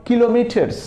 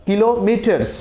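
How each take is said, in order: No difference in how they are said.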